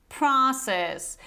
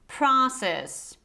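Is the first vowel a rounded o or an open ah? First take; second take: open ah; open ah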